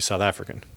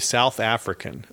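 First: South African accent, syllables run together. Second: American accent, every syllable clearly enunciated. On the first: The speaker calls it right. "but it's actually South African" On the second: The speaker calls it wrong. "Americans say South African, like they enunciate all the syllables"

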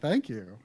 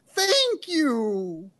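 First: It is said in his normal voice. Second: It is said in an imitated Beatle voice.

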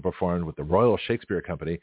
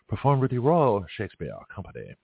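First: It is read in the speaker's usual accent. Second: It is read in a British accent.

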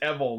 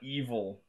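First: It is said like devil without the d. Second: It is said unlike devil without the d. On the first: This is the correct name of the character. The speaker calls it right. "devil without the D" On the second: This is the ordinary word, not the name. The speaker calls it wrong. "not Evil"

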